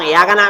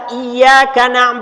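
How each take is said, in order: First: The y sound is short and single. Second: The y sound is held and doubled. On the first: It means sunlight. The speaker calls it wrong. "Tapi tasdid hilang" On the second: It means only you. The speaker calls it right. "Kalau tasdidnya ada"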